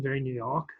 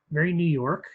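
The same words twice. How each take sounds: First: Mock New York accent with the r dropped in "York"; a lightly done, self-mocking New York accent; bad New York accent. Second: Said in the usual way. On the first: Shown as a demonstration. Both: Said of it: "that was my worst New York accent".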